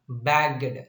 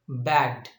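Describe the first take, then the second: First: The ending is not a plain d sound. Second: The ending is a plain d sound. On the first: The speaker calls it wrong. "we pronounce this one" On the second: The speaker calls it right. "ed is represented by only d here"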